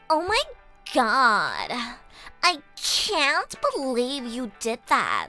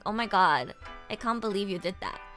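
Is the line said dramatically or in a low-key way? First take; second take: dramatic; low-key. First: It is said in a showy American-style accent. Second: It is said in a flat, low-key Australian accent. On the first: The speaker sounds pretentious. "American and British accents sound more pretentious" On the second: The speaker sounds unpretentious. "if like an Australian were to say that"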